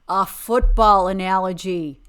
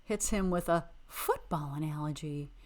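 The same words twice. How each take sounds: First: Much louder, punch "football"; exasperated repeat. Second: Said in the usual way. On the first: Real, not acted. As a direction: repeat it loudly in disbelief.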